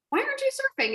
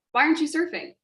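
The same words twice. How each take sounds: First: Much higher, sing-song mock question; squeaky exaggerated taunt. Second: Said in the usual way. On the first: Shown as a demonstration. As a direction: pitch it way up like a sneer. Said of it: "didn't say in a way of like". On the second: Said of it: "Just genuine curiosity".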